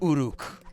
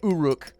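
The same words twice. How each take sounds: First: The R is rolled with a trill. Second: The R is said plainly, without a trill. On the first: The speaker calls it right. "You gotta go Uruk. You gotta roll the R" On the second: The speaker calls it wrong. "some people say Uruk. It doesn't sound as dope"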